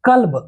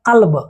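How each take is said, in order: First: "कल्ब" with an ordinary front k; k without nukta. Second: "कल्ब" as qalb, k made back in the throat; nukta q sound. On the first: Teacher asking students to hear the difference, "कल्ब" with plain k. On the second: Teacher asking students to hear the difference, "कल्ब" with throaty q. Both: Shown as a demonstration. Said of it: "दोनों में अंतर है".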